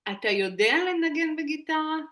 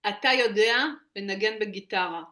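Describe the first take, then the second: First: It is said with the intonation of a question. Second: It is said with the intonation of a statement. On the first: The speaker asks whether the listener can play guitar. "maintenant, je vais demander" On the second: The speaker asserts that the listener can play guitar. "Là, je te dis, tu sais jouer à la guitare"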